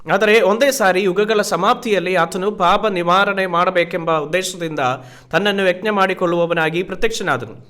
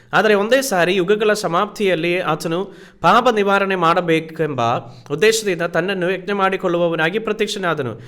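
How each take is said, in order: Both takes have the same delivery.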